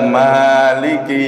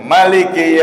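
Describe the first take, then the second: First: The vowel after the m is drawn out long. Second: The vowel after the m is kept short. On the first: "memnya itu dibaca panjang" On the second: "bisa dibaca pendek"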